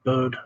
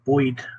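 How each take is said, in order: First: It is said with a plain, neutral accent. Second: It is said with a New York accent. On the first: "instead of bird" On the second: "he still said Boyd instead of bird"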